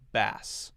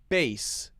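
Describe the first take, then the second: First: The vowel is a short A, as in cat. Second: The vowel is a long A, rhyming with base. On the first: It means the fish. "the short A sound" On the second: It means low musical tones or the instrument. "just like B A S E"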